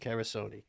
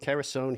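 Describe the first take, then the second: First: The name ends with a final 'ee' sound. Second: The name ends without a final 'ee' sound. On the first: This is how the speaker's brother says the name. "He's Carasoni" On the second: This is how the speaker says his own name. "I'm Carasone"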